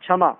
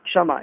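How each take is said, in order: First: क्षमा said as "chhamaa"; wrong "chh" sound. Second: क्षमा said as "kshamaa"; correct "ksh" sound. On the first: Teacher showing a regional error, क्षमा with chh. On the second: Teacher correcting it, क्षमा with ksh. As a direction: open क्षमा with a clear "ksh". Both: Shown as a demonstration. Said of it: "अलग-अलग राज्यों की".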